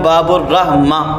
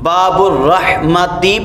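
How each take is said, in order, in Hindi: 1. आखिरी शब्द a पर खत्म होता है, t की आवाज़ नहीं। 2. आखिरी शब्द t की आवाज़ और i पर खत्म होता है। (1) "लेकिन मैं बाबुर रहमा" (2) "बाबुर रहमती पढ़ना था"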